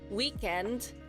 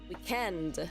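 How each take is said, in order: First: The stress is on the first syllable. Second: The stress is on the second syllable. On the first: This is the American way of saying it. "for U S, we stressed a week" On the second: This is the British way of saying it. "U K English says weekend"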